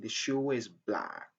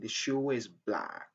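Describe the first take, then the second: First: A linking sound joins shoe and is smoothly. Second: The same.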